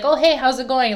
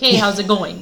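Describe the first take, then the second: First: The greeting sounds warm and friendly. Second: The greeting sounds cold and displeased.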